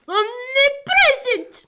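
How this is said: It is said in an Italian-sounding accent. "did you suddenly become Italian?"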